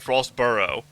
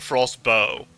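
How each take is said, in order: First: The name is said with a two-syllable ending, 'burrow'. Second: The name is said with a one-syllable ending, 'bow'. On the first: This is how some other people say the name. "Some guys are saying Frostburrow" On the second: This is how the speaker has been saying the name. "I was saying Frostbow"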